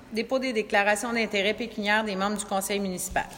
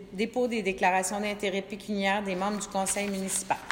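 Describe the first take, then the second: Both takes have the same delivery.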